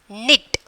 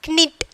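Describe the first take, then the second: First: The k at the start is silent. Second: The k at the start is pronounced. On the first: The speaker calls it right. "knit is the correct pronunciation" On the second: The speaker calls it wrong. "that is wrong"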